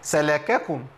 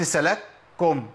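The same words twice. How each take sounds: First: سلككم said as salakakum; voweled kaf. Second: Slow سلككم as salak-kum, first kaf closed; faulty سلككم, split as salak, kum; merged kafs error. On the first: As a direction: sound an open ka before kum in سلككم. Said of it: "بس كاف مش ساكنة". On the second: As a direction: stop on the first k of سلككم, no vowel after it. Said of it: "سكنت الكاف وأضغمتها". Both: Shown as a demonstration.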